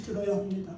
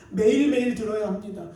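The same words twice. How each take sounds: First: Said in the usual way. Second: 매일매일 hit louder, the rest falling away; stress on 매일매일. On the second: Shown as a demonstration. Preacher urging the congregation to listen daily, 매일매일 stressed. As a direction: lean hard on 매일매일 then drop.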